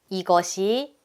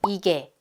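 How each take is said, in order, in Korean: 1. 전체 형태로 말했고, 세 음절이에요. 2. 두 음절로 줄여서 말했어요.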